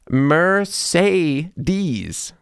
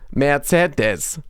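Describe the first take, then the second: First: It uses three different E vowel sounds. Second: It uses the same E vowel throughout. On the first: "Americans say Mercedes with three different sounds of E" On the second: "the Germans, they just say it with one E sound"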